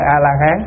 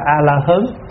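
First: The last syllable has an open 'a' vowel. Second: The last syllable has a mid 'ơ' vowel.

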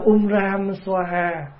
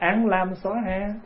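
First: The first word sounds like 'um'. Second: The first word sounds like 'an'. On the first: This is the original Sanskrit pronunciation. "là tiếng Phạn" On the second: This is the Vietnamese transliterated pronunciation. "mình mới âm lại là án lam xoa ha"

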